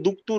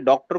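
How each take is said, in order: First: It is said the Arabic way, duktur. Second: It is said as in English, doctor. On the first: "उसको एरबाइज्ड करके ना दुक्तुर बोलते हैं" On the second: "डॉक्टर को"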